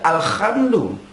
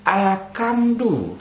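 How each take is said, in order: First: The middle consonant is a clean breathy h. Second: The middle consonant is a hard k sound. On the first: It means all praise. The speaker calls it right. "Mestinya alhamdu dibaca alhamdu" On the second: It no longer means all praise. The speaker calls it wrong. "Hak berubah jadi kaf"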